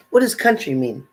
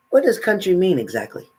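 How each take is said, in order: First: What punched, the rest level; stress on What. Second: Does pushed up higher and longer; stress on does. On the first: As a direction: lean on the word What. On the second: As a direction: lean hard on the word does. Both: Real, not acted. Repeats the question, stressed differently.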